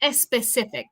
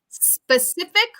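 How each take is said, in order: First: An extra vowel is added before the S. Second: The S starts directly with no vowel. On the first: The speaker calls it wrong. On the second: The speaker calls it right.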